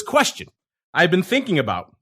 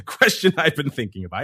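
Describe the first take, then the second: First: "Question" jumps much higher, stress on the wrong syllable; botched emphasis. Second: Said in the usual way. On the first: Shown as a demonstration. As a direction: misread "Question I've been thinking about," with the stress in the wrong place. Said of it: "the wrong emphasis on the wrong syllable". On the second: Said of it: "let's try that again".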